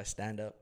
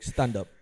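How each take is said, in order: First: Said in the usual way. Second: Loud mock command; brusque order. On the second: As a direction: imitate the Russian lady ordering sharply. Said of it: "This fucking Russian lady comes in".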